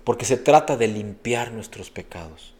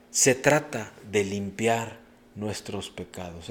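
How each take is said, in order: First: Said in the usual way. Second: "Se trata de limpiar nuestros pecados" drawn out slowly word by word; slow emphatic repeat. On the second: Shown as a demonstration. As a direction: lean into each word, slower. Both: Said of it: "repeated for emphasis".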